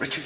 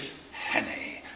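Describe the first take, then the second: First: Said in the usual way. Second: Savoured whisper. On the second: Shown as a demonstration. Host relishing the actor's role name, whispered. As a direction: breathe "Richard Hannay" as if tasting the name. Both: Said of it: "Trips off the tongue".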